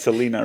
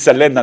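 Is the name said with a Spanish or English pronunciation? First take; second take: English; Spanish. First: The name is said with English vowels and rhythm. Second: The name is said with Spanish vowels and rhythm. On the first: This is how outsiders say it. The speaker calls it wrong. "not Selena" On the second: This is how the speaker's community says it. The speaker calls it right. "For us, it's Selena"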